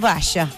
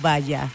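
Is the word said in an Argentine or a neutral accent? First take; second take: Argentine; neutral. First: It is said in an Argentine Spanish accent. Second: It is said in a neutral Spanish accent. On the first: "Menos los argentinos, querido" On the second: "yo creo que todos nosotros pronunciamos igual"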